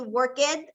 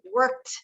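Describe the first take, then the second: First: "worked" with an extra e at the end, work-et; wrong worked. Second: "worked." as one syllable, ending in a t sound; correct worked. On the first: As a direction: say "worked" in two syllables, the wrong way. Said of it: "en vez de decir worked". ("worked" pronunciado work-et, forma incorrecta) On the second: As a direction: say "worked." short, workt. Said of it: "vamos a decir worked". ("worked." de una sílaba, sonando workt) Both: Shown as a demonstration.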